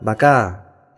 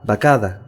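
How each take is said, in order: First: The ending is shortened to a stressed -a. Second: The ending is said in full as -ada.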